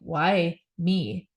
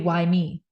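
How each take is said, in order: First: It sounds self-pitying, like a victim. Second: It sounds open and curious, not self-pitying.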